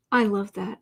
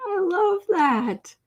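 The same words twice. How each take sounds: First: Said in the usual way. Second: Higher, slow delighted coo. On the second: Real, not acted. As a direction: savour the delight. Delighted at kitty's name.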